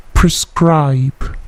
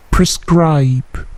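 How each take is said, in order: Both takes have the same delivery.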